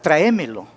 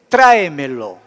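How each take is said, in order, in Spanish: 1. El acento cae en una sílaba posterior. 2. El acento cae en la primera sílaba. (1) "es modismo, regionalismo" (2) "correctamente es tráemelo"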